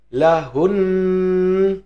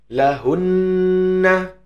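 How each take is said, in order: First: The word ends on a held nasal n. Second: The word ends with a vowel after the n. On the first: The reader stops on the word. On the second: The reader continues past the word.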